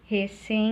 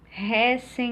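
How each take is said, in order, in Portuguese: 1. O acento está na segunda sílaba. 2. O acento está na primeira sílaba.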